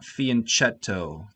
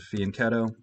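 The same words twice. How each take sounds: First: The 'ch' is said as a soft CH sound. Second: The 'ch' is said as a hard K sound. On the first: The speaker calls it wrong. "It's not fianchetto" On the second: The speaker calls it right. "The C H is pronounced like a K"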